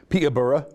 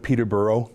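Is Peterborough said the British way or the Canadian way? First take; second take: British; Canadian. First: The name is said the local British way. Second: The name is said the Canadian way. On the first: This is how locals in Britain say it. "He said Peterborough ... That's how they say it over there" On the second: This is how the speaker says it at home. "instead of Peterborough"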